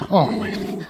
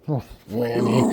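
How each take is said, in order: First: Higher, breathy-free whispered coo; doting pet-talk coo, higher. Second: Said in the usual way. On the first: Real, not acted. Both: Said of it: "baby talk to dog repeated".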